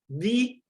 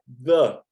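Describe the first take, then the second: First: The vowel of 'the' sounds like 'ee'. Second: The vowel of 'the' sounds like 'uh'.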